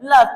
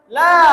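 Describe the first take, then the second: First: The vowel is clipped short. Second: The vowel is drawn out long. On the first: It means 'surely'. "jika dibaca pendek" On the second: It means 'not'. "jika dibaca panjang"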